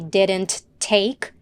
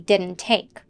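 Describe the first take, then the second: First: The T at the end of didn't is released. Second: The T at the end of didn't is dropped. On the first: The speaker calls it wrong. "we don't say didn't take" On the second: The speaker calls it right. "the T in the word didn't is dropped"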